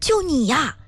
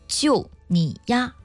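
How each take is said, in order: First: It is said in an excited tone. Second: It is said in a neutral tone.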